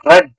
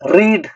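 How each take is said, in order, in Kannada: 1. ಸ್ವರ ಚಿಕ್ಕದು, 'red' ಥರ. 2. ಸ್ವರ ಉದ್ದ ಇದೆ, 'reed' ಥರ.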